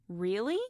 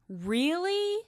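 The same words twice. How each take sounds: First: The word sounds surprised. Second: The word sounds angry. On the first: The speaker did not expect this. "If you're surprised" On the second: The speaker is annoyed by this. "Angry would be"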